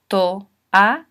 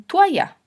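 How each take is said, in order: First: Slow "to-a-ya", a gap after each syllable; three separate syllables. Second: "toalla" run together as two syllables, tua-ya; mispronounced. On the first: Teacher correcting a mispronounced word, "to-a-ya" in three separate syllables. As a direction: give "to-a-ya" a full o and three beats. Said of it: "Hay que separarlo en tres sílabas". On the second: Teacher showing how some people get it wrong, "toalla" mispronounced as tua-ya. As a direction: squash the o of "toalla" into a w glide. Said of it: "podemos pronunciar mal las palabras". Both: Shown as a demonstration.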